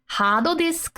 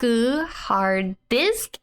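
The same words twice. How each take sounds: First: "hard disk" said the Japanese way, higher; katakana-style "hard disk"; Japanese loan pronunciation. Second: Said in the usual way. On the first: Shown as a demonstration. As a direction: say "hard disk" as hado disuku. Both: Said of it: "English loan word".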